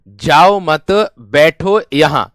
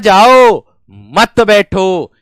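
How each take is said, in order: First: The pause comes after 'mat'. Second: The pause comes after 'jao'.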